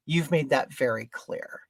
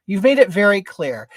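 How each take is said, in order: First: Low, soft and controlled; restrained retort. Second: VERY CLEAR pushed out louder; emphatic repeat. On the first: Customer rebukes the market man, quietly restrained. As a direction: keep the rebuke down. Retold retort, first softer take. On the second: Customer drives the rebuke home, "very clear" said forcefully. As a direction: lean hard on "very clear". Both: Retold or imitated.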